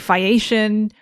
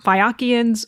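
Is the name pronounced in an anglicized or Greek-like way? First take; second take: anglicized; Greek-like. First: The name is pronounced in an anglicized way. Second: The name is pronounced in a Greek-like way. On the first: "an anglicized pronunciation of it" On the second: "closer to how it would have been said in Greek"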